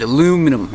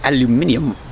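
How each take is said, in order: First: The word is said the plain way. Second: The word is said the fancy way.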